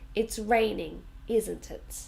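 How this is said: The voice falls at the end of the tag. The speaker is fairly sure it is true. "usually in a sentence, it goes down at the end"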